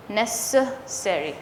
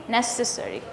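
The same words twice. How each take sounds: First: "Necessary" slow and softer, broken into separate syllables. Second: "Necessary" run together softly with a tiny schwa; barely touch the second syllable of "Necessary". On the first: Teacher isolating the second syllable, slow broken-up "Necessary". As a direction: pull "Necessary" apart with a distinct "suh" second. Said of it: "the second syllable". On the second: Teacher showing natural "Necessary", second syllable very short. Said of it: "It's very, very tiny". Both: Shown as a demonstration.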